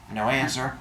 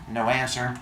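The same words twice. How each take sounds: The two takes are said the same way.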